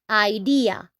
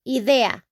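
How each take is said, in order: First: The word is pronounced with English sounds. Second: The word is pronounced with Spanish sounds. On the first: "in English, we say idea" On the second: "in Spanish, we're going to say idea"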